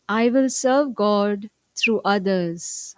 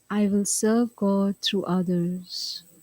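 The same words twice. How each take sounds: First: The sentence is spoken at normal volume. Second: The sentence is spoken softly. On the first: "In a regular voice now" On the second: "Little softer now"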